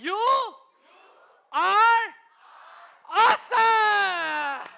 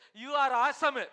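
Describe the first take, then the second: First: It is said in a warm, friendly tone. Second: It is said in a flat, dismissive tone. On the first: The other person is made to feel good. The speaker calls it right. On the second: The other person is brushed off. The speaker calls it wrong. "Don't say like this"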